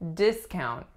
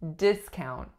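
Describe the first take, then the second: First: The stress is on the first syllable. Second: The stress is on the first syllable.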